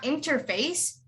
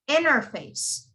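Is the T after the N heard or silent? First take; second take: heard; silent. First: The T after the N is clearly pronounced. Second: The T after the N is dropped entirely. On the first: The speaker calls it wrong. "It's not interface" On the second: The speaker calls it right. "it's interface"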